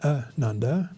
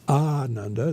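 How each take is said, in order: First: The first vowel is short. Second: The first vowel is long. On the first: It means joyless. The speaker calls it wrong. "The short A" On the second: It means joyous. The speaker calls it right. "the long A at the start"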